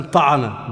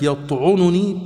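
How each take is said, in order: First: "طعن" with an a after the ع, ta'an; fatha on the ayn. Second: "يطعنني" with a u after the ع, yat'ununi; damma on the ayn. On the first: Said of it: "بفتح العين". («طعن» بفتح العين) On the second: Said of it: "بضم العين". («يطعنني» بضم العين) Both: Shown as a demonstration.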